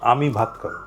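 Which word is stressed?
আমি. The stress falls on the word আমি.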